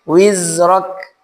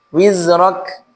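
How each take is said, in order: Both takes have the same delivery.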